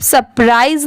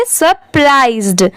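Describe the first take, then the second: First: सरप्राइज ending on the "z" sound; final D dropped. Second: सरप्राइज्ड ending in a clear "zd"; careful सरप्राइज्ड, closed on ड; final D sounded. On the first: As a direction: leave the "d" off सरप्राइज. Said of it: "इसे सिर्फ सरप्राइज नहीं पढ़ेंगे". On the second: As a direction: add a "d" after the z in सरप्राइज्ड. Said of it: "last में डी भी लगा हुआ है". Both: Shown as a demonstration.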